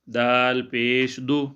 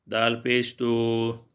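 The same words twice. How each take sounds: First: The final vowel is kept short. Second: The final vowel is stretched out long. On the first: The speaker calls it right. "छोटा करके पढ़ेंगे" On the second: The speaker calls it wrong. "बाद लोग इस तरह पढ़ते हैं, लेकिन ये इस तरह गलत है"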